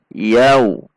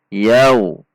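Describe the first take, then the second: The two takes are said the same way.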